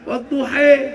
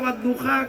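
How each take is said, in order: First: The word ends in an 'e' vowel. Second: The word ends in an open 'a' vowel.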